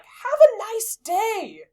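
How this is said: It is said warmly, as if really meant.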